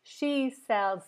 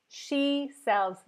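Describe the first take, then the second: Both takes have the same delivery.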